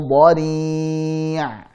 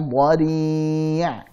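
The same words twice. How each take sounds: No difference in how they are said.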